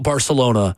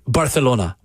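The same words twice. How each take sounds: First: Barcelona is pronounced the plain English way. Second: Barcelona is pronounced the local Spanish way.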